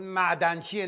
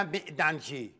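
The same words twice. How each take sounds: First: معدنچیه with a clear "ma'", as "ma'danchiye"; corrected pronunciation. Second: معدنچی with "e" in the first syllable, "me'danchi"; mock the wrong vowel in معدنچی; mimicked mispronunciation. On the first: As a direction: say معدنچیه with an open first vowel. (معدنچیه را با فتحه، «مَعدنچیه» بگو) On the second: (معدنچی را به غلط با کسره، «مِعدنچی» بگو) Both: Shown as a demonstration. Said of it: "نه معدنچی".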